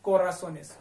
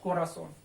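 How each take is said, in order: First: कोरासोनेस said ko-ra-so-nes with an added es; कोरासोनेस stressing the es ending; teacher models कोरासोनेस; plural form. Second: कोरासोन said ko-ra-son with stress on son; कोरासोन with a falling close; teacher models कोरासोन; singular form. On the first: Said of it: "ये हट जाएगा". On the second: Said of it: "कोरासोन बोलते हैं उसको". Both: Shown as a demonstration.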